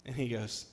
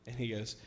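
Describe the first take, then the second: No difference in how they are said.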